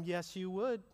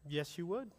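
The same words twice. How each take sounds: First: Said in the usual way. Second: Softer, hushed repeat of Yes, you would; a gentle, pointed aside; quiet. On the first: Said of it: "repeated rebuttal to the congregation". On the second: Shown as a demonstration. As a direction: drop it softly and let it land. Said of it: "softer repeat of the rebuttal".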